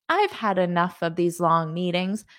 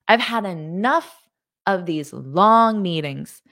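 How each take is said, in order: First: It is said calmly, without emotion. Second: It is said with frustration and anger. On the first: The speaker calls it wrong. "So you can't say" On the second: The speaker calls it right. "you have to say it with attitude because there's going to be frustration or anger"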